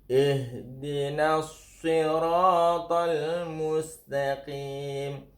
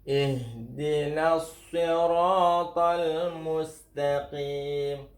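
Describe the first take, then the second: The two takes are said the same way.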